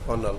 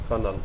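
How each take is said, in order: First: It is said as two syllables, ker-nel. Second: The same.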